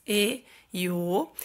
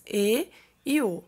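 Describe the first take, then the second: First: E and O said with closed vowels, "ê" and "ô", drawn out; E and O as long close-mid vowels. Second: E and O said with open vowels, "é" and "ó"; E and O as open-mid vowels. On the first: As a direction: say E and O slowly and closed, as in "ê" and "ô". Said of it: "nas vogais tônicas fechadas". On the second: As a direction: say E and O wide open, as in "é" and "ó". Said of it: "nas vogais tônicas abertas". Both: Shown as a demonstration.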